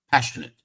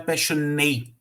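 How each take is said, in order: First: The vowel before the final T is reduced. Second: The vowel before the final T is full. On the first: The speaker calls it right. "A gente só vai unir o N ao T" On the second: The speaker calls it wrong. "E aqui não é passionate. O A aqui ele não está sendo pronunciado fortemente"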